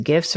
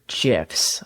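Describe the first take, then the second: First: "gifs" with a hard g as in gift. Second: "gifs" with a soft g as in gem. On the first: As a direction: say "gifs" starting with a hard g sound. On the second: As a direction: say "gifs" starting with a j sound, like "jifs". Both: Shown as a demonstration. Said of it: "Is it gifs or gifs?".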